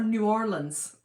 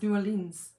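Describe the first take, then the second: First: The name is said slowly and fully. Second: The name is said quickly and run together.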